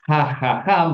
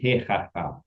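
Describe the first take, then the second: First: The first vowel is an 'a' sound. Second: The first vowel is an 'e' sound. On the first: This is the heavier, harder-to-say original form. The speaker calls it wrong. "Aslinya gini nih. Hahaha berat" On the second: This is the lighter, easier form actually used. The speaker calls it right. "Maka diganti hehaha"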